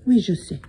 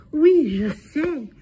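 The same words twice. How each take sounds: First: Said in the usual way. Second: Higher, slow, drawn-out sing-song; sing-song French. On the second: Real, not acted. Sitter teasing the cat in French, slow and sing-song. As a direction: stretch "Oui, je sais" out high and slow.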